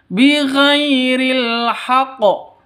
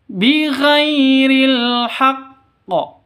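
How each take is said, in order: First: The qaf is said short, as a single consonant. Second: The qaf is held long, as a doubled consonant. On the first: The speaker calls it wrong. "bukan seperti ini cara bacanya ... Salah. Itu kalau bukan tasydid. Kalau hanya sukun" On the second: The speaker calls it right. "kalau tasydid berarti artinya qafnya ini ada dua ... Makanya cara bacanya seperti ini"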